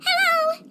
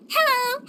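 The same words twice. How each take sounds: First: Higher, eager second hello; friendly greeting, bigger. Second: A rising, welcoming hello; friendly greeting. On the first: Character showing how Melazines say hello, eager and friendly. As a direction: wave and call it out with extra cheer. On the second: Character showing how Melazines say hello, friendly. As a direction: greet them like an old friend, lifting at the end. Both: Shown as a demonstration. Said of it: "greet the other person in a friendly tone".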